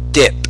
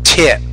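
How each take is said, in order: First: The first sound is a D-like sound. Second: The first sound is a T with air. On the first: The speaker calls it wrong. "It almost sounds like a D the way you pronounce it" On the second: The speaker calls it right. "a word like tip"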